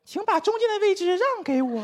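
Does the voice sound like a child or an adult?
child. It is said in a childlike voice.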